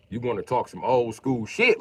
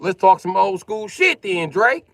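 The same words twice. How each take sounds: First: Calling out. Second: High, loud, slow call-out to Drake; loud challenge. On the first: Calling out a viewer in chat. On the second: To a viewer named Drake in chat, a high, loud challenge. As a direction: throw it back at him, loud and slow. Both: Real, not acted.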